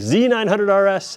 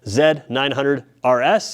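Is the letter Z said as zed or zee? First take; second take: zee; zed. First: The letter Z is said the American way. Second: The letter Z is said the Canadian way.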